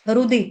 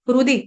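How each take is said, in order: First: The h is silent. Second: The same.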